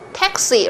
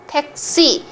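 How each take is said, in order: First: It is said with English pronunciation. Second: It is said with Korean pronunciation, tense s. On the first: "In English, it's taxi" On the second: "But in Korean, it's taxi"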